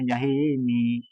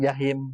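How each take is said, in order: First: The word ends with a final short i vowel. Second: The word ends on m with no final vowel. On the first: The speaker calls it right. "mi dikasrohin mi jahimi" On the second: The speaker calls it wrong. "jangan diwakaf jahim"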